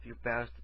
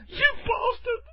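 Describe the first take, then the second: First: Said in the usual way. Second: Very high-pitched mocking cry; mock outraged woman. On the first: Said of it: "every time I do a bastardly thing". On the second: Mimicking the woken woman's insult, high mock outrage. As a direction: squeal it as an outraged victim. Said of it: "I'm so gonna isolate that one".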